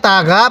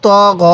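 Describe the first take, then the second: First: "তা গা" with open a vowels; common mispronunciation. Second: "ত গ" with full, rounded o-like vowels; correct heavy vowels. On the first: Teacher quotes many learners' error, "তা গা" with open a. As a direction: say "তা গা" with light a instead of rounded o. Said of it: "অনেকে তা গা পড়ে". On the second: Teacher models correct letters, "ত গ" with rounded heavy vowels. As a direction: say "ত গ" heavy, never with an open a. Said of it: "এরকমভাবে পড়ব না". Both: Shown as a demonstration.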